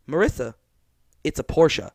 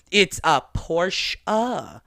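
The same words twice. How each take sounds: First: "Porsche" with a final sounded e, POR-sche, calmly; Porsche said the German way. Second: "Porsche" slowly, in two syllables, POR-sche; Porsche said the German way. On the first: Retold or imitated. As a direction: patiently correct the friend on "Porsche". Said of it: "I was like". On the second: Shown as a demonstration. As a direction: correct the friend, stretching out "Porsche".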